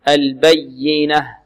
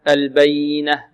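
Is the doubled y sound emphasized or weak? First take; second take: emphasized; weak. First: The doubled y is pressed with emphasis. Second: The doubled y gets no extra emphasis. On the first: The speaker calls it right. "نبر" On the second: The speaker calls it wrong. "لا نقول البينة"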